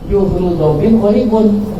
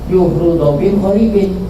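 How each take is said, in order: First: The last word ends with an 'un' sound. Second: The last word ends with an 'in' sound. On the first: The ending follows the word's own grammatical role. "Harusnya kan dibacanya apa?" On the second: The ending copies the neighbouring word's vowel.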